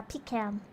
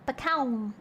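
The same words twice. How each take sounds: First: "pecan" with a long EE and flat a as in can; pecan as PEE-can. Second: "pecan" with a short first syllable, drawn-out KAHN; pecan as puh-KAHN. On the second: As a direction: say PECAN as puh-KAHN, long second vowel. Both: Shown as a demonstration. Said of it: "Do you pronounce it pecan or pecan".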